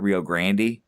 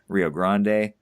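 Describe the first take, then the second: First: Rio Grande is pronounced a non-Spanish way. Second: Rio Grande is pronounced the Spanish way. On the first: The speaker calls it wrong. "but not" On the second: The speaker calls it right. "the correct, you know, Spanish pronunciation is"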